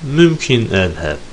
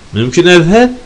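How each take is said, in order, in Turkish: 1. Ses son hecede alçalır. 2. Ses son hecede yükselir. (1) "son hece alçalan tonla söylenirse gidebilirim" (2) "gidebilir miyim şeklinde adeta bir izin cümlesi oluyor"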